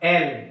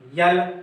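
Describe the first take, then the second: First: The letter name begins with a plain vowel. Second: The letter name begins with a y glide. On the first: The speaker calls it right. "इसका उच्चारण एल होगा" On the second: The speaker calls it wrong. "यल नहीं"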